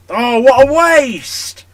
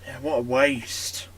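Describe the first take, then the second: First: Drawn-out, loud, higher cry of despair; anguished shout. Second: Said in the usual way. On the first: Real, not acted. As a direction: stretch it out like a gutted commentator. Missed chance, commentator-style cry.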